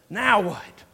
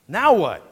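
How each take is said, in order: First: NOW WHAT as a throwing-up-of-hands complaint; fed-up, not really asking NOW WHAT; exasperated now what. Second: NOW WHAT asked in earnest, pushed louder. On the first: Preacher shows the congregation the other emphasis, exasperated. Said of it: "throwing our hands up and saying". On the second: Preacher demonstrates sincere question to congregation, earnest. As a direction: ask NOW WHAT really wanting the answer. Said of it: "Like, really wanting to know". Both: Shown as a demonstration.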